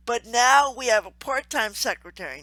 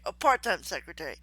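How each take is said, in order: First: Said in the usual way. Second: Part-time pressed, quick corrective tone; part-time stressed as the correction. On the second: Shown as a demonstration. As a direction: hit the word part-time against full-time. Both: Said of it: "not a full-time secretary".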